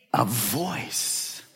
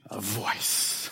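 First: Said in the usual way. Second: "a voice" whispered low. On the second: Shown as a demonstration. Pastor hushing the church on the words "a voice", whispered. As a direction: breathe out "a voice".

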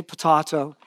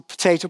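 First: "potato" with the middle sound as in father, po-tah-to; Kiwi potato. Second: "potato" with the middle sound as in day, po-tay-to; American potato. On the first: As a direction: say "potato" the New Zealand way, po-tah-to. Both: Shown as a demonstration. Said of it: "it's a dance, a potato".

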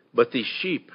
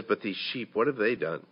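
First: Said in the usual way. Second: Much softer, pleading repeat; soft plea. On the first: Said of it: "and said". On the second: Retold or imitated. David pleading softly with the Lord for his people. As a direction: drop to a hushed plea for the sheep. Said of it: "he says".

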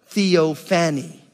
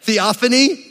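First: Theophany drawn out with a falling tune; theophany slowly. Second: Theophany with a rising tune, stress on the -oph-; theophany with a questioning rise. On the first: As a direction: stretch out theophany. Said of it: "Theophany, right?". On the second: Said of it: "that's pretty good, right?". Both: Shown as a demonstration.

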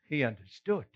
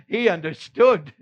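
First: Said in the usual way. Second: Louder, firm declaration; stating it with conviction; firm emphasis. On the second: Acted.

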